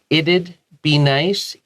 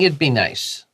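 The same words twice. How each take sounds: First: The phrase is said slowly, with it'd clearer. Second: The phrase is said quickly, with it'd reduced. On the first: "If you say it slower" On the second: "if we say it fast"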